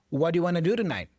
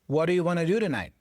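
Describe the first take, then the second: First: The words run together in connected speech. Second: The same.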